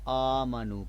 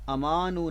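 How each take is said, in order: First: The first vowel is long. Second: The first vowel is short. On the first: The speaker calls it right. "बल्कि आमनु पढ़ेंगे" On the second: The speaker calls it wrong. "अमानु नहीं पढ़ेंगे"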